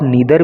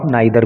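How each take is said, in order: First: The first vowel sounds like 'ee'. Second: The first vowel sounds like 'eye'. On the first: "इसको आप नीदर भी पढ़ सकते हो" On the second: "इसको आप नाइदर भी पढ़ सकते हो"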